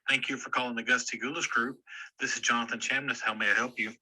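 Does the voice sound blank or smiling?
blank. It is said with a blank, expressionless voice.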